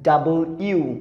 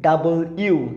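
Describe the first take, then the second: First: It is said in three full syllables. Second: The same.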